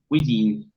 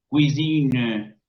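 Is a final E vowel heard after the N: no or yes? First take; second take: no; yes. First: The word ends on the N, no final vowel. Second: A faint final E is heard after the N. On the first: The word is used in running speech. "no se escucha esa E" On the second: The word is being cited on its own. "dejo entrever esa E"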